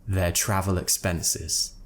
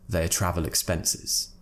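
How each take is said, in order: The two takes are said the same way.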